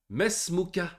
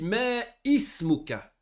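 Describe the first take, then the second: First: The glottal stop is dropped and the words run together. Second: The glottal stop before 'ismuka' is pronounced. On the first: The speaker calls it right. "J'ai pas prononcé le hamza" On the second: The speaker calls it wrong. "j'ai pas dit mais ismuka"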